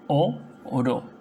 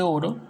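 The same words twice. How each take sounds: First: "o oro" as two beats, o, then ro; long stressed o, pause, then ro in "o oro"; split into syllables. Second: Said in the usual way. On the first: Shown as a demonstration. Teacher separating a word for pupils, "o oro" split o, ro. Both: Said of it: "vendría a ser separo".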